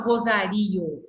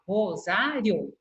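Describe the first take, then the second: First: Rosario with the I stressed and split from O; wrongly split vowels. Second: Rosário slowly, stressed ZA, IO as one syllable; joined final vowels. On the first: Teacher showing how not to say it, vowels split apart. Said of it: "Eu não falo Rosario". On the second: Teacher showing how she says it, vowels kept together. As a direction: say Rosário as ro-ZA-rio, ending joined. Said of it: "eu falo Rosário". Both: Shown as a demonstration.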